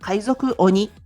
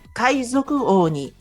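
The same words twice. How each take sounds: First: The O vowel is kept short. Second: The O vowel is drawn out long. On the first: The speaker calls it wrong. "Ce n'est pas" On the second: The speaker calls it right. "c'est le son étiré. On prononce"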